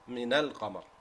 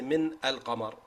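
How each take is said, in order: First: Min runs straight into al without a catch. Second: A glottal catch separates min from al. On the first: The speaker calls it right. "the hamza is gone because you made a connection with the letter before it" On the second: The speaker calls it wrong. "So you don't say"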